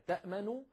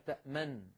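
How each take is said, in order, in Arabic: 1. تتبع النون الأخيرة ضمة قصيرة. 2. لا توجد حركة بعد النون الأخيرة. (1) "تأمن فعل مضارع مرفوع وعلامة رفعه الضمة" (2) "فبعض العرب كانوا يسكنون النون الأولى"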